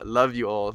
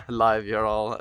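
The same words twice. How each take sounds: First: Said in the usual way. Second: "live ya all" with a short i and a long "ya"; slurred love you. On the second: Real, not acted. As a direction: slip on "live ya all", vowel like "live".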